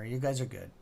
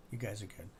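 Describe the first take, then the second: First: Said in the usual way. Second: Said again much softer and lower; quiet, lower repeat to yourself; soft echo. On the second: Real, not acted. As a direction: let the repeat drop to a murmur.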